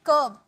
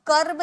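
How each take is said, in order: First: कर्ब as "kuhb", with no r; silent r. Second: कर्ब with r heard before b; sounded r. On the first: Teacher models the word for learners, r silent. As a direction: say कर्ब dropping the r before b. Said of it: "आर silent है". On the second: Teacher shows the reading to avoid, sounded r. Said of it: "कर्ब नहीं". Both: Shown as a demonstration.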